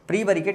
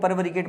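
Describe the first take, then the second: First: The word begins with the sound 'pree'. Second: The word begins with the sound 'pari'. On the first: The speaker calls it right. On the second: The speaker calls it wrong.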